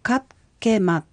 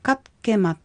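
First: The word is said slowly and drawn out. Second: The word is said at normal speed. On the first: "もう一度ゆっくり発音してみましょう。" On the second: "では普通に発音しましょう。"

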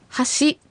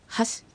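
First: The final shi sound is fully pronounced. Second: The final shi sound is weak and barely audible. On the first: The speaker calls it wrong. "発しではなく" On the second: The speaker calls it right. "ちょっと弱めに発音して"

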